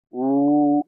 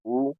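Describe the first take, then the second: First: उ held for twice as long, two beats. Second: उ said short, one beat. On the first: Teacher demonstrating the long उ, held double. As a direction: stretch the उ to a double-length vowel. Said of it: "और दीर्घ को बोलेंगे तो". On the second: Teacher demonstrating the short उ, one beat. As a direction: clip the उ to a single quick beat. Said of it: "ये ह्रस्व को पहले बोलेंगे". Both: Shown as a demonstration.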